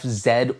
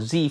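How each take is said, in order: First: The letter is said the non-American way, zed. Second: The letter is said the American way, zee.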